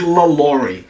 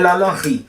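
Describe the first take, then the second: First: The name is said with an English pronunciation. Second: The name is said with a French pronunciation. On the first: The speaker calls it wrong. "as pessoas que usavam o sotaque inglês chamavam de LaLaurie" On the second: The speaker calls it right. "a pronúncia, né, francesa é la Laurie"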